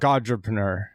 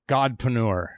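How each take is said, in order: First: The word has four syllables, with an extra 're'. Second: The word has three syllables, with no extra 're'. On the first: The speaker calls it wrong. "not Godrepreneur" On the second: The speaker calls it right.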